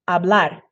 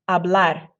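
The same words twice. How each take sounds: The two takes are said the same way.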